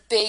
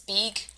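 First: The vowel is short, as in 'it'. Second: The vowel is long, as in 'eat'. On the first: The speaker calls it right. "instead of big" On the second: The speaker calls it wrong. "he says big"

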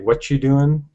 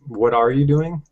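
First: The word are is dropped from the phrase. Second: Every word of the phrase is said in full. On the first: "And then we say"

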